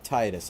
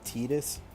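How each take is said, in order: First: The first syllable sounds like the word tide. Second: The first syllable does not sound like tide. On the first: The speaker calls it right. "I call it Titus. ... sounds right because it sounds like tide" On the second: The speaker calls it wrong. "Other people call it Titus. Titus doesn't sound right"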